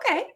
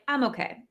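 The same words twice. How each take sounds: First: It is said with a high, bright pitch. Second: It is said with a low, flat pitch. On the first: The speaker is doing fine. "high inflection" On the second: The speaker is not really fine. "there are some okays where it's like"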